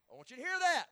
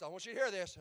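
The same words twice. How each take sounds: First: Emphatic call. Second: Said in the usual way. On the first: Real, not acted. Preacher repeats line louder later.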